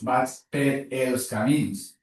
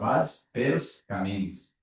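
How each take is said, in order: First: The words 'per' and 'els' are said separately. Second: The words 'per' and 'els' merge into 'pels'. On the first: The speaker calls it wrong. "no dius" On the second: The speaker calls it right. "sinó"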